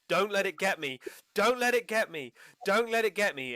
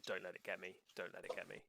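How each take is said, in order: First: High, loud screaming plea; terrified scream. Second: Much softer, drained repeating; a worn-out loop after screaming; exhausted murmur. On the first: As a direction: scream it right in their face. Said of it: "he screams in your face". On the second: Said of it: "over and over and over". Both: Acted.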